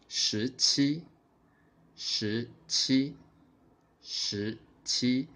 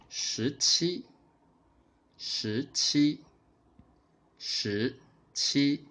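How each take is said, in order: Both takes have the same delivery.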